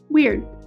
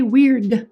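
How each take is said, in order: First: The final D is held and not released. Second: The final D is audibly released. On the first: The speaker calls it right. "The D in weird isn't released when we say the word by itself" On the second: The speaker calls it wrong. "We don't say weird"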